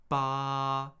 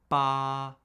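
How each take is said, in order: First: The pitch stays high and level throughout. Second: The same.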